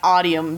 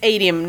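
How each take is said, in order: First: The word does not rhyme with stadium. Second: The word rhymes with stadium. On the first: The speaker calls it wrong. "at first I was saying Audium, but Jay corrected me" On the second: The speaker calls it right. "the way that you pronounce it is to mimic stadium"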